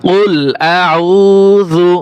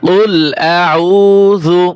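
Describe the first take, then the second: The two takes are said the same way.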